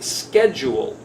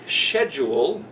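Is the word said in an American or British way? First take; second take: American; British. First: It is said the American way, without the 'sh'. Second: It is said the British way, starting with 'sh'. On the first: "we in America say schedule" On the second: "the British say the word schedule, S H"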